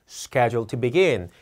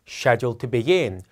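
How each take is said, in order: The two takes are said the same way.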